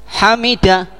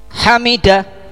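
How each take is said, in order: Both takes have the same delivery.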